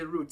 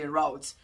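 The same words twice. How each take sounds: First: The word is said in a British accent. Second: The word is said in an American accent. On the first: "The U K people they say route" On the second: "Americans say route"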